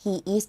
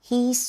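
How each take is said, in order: First: Both words are said in full, separately. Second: The two words are merged into one syllable.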